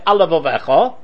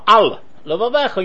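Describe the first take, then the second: First: The two words run together without a break. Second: A short break separates the two words. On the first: It sounds like only one lamed is said. The speaker calls it wrong. "if you say it quickly" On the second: Both lameds are heard separately. The speaker calls it right. "you make a gap"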